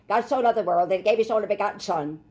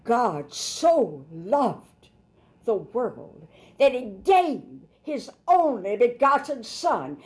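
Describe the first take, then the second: First: Quick, offhand reading, no feeling; rushed, matter-of-fact recital; just reading it off. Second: Very slow, drawn out, rising pleading; slow preacher's plea, pitch climbing toward Son; emotional appeal. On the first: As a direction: rattle it off like a routine verse. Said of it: "Most Christians just read that". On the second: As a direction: linger on each word as a heartfelt plea. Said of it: "No, an emotional appeal". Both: Shown as a demonstration.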